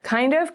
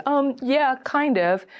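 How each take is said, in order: First: High, rising challenge; questioning echo. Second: High, noncommittal hedge; hesitant answer. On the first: Dater pressing a vague date for clarity, questioning echo. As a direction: echo it back as a pointed question. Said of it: "And you can say". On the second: Date asked if this is a date, hesitant answer. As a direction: hedge it, starting high and dropping off. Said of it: "And they can say". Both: Acted.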